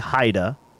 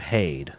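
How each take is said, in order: First: The name is said with German pronunciation. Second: The name is said with English pronunciation. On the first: "Should we do the German pronunciation, which would definitely be Haida?" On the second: "Or should we do Haid?"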